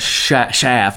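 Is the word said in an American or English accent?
American. The word is said in an American accent. The speaker calls it wrong. "It's not"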